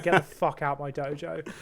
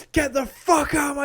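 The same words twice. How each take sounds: First: Said in the usual way. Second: Loud, high mock yell; retold scream. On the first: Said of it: "the guy's just like". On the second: Sensei throws challenger out of the dojo, mock screaming. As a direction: imitate an enraged shout, pitched up. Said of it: "screaming at him".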